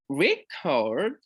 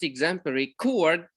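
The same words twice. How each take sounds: First: "record" said as RE-cord, first syllable stressed; the noun "record", stressed up front. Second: "chord" in "exemplary chord" stressed as the second syllable of record; the verb record, second syllable stressed. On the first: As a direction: put the weight on the RE of "record". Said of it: "stress falls on the first syllable". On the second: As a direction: say record as re-CORD, weight on the last syllable. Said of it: "stress falls on the second". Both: Shown as a demonstration.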